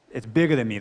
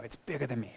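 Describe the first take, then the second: First: Said in the usual way. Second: Dropped to a hushed repeat; hushed echo of the line before; quiet. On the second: Real, not acted. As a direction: say it again, much softer, in awe.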